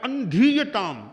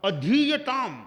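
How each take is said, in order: First: "अंधीयताम" with an n after the first a; added nasal. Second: "अधीयताम" opening on a pure short a; no nasal after a. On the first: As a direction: nasalise the opening of अंधीयताम, drawn out slowly. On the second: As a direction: punch the long धी in अधीयताम, higher. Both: Shown as a demonstration. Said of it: "ए पर अनुस्वार लगा दिया".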